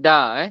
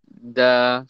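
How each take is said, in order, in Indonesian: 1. Bunyi 'da' diucapkan keras dan berat. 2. Bunyi 'da' diucapkan lembut dan ringan. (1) "Dia bukan da" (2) "Dia adalah da. Dia lembut lagi"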